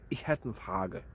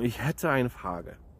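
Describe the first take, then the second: First: The words are clipped to 'hätt' and 'ne'. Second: Every word is pronounced fully, including 'eine'.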